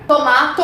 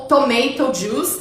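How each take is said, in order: First: "tomato" as to-MAH-to; British-style "tomato", open middle A; first pronunciation variant. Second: "tomato" as to-MAY-to; American-style "tomato", middle like "may"; second pronunciation variant. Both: Shown as a demonstration. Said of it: "tem essas duas pronúncias".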